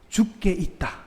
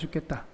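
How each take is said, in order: First: It is said slowly, each part separate. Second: It is said fast, run together.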